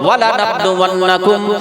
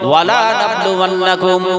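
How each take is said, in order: First: The vowel after 'la' is short. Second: The vowel after 'la' is drawn out. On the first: The testing will certainly happen. The speaker calls it right. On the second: The testing will certainly not happen. The speaker calls it wrong.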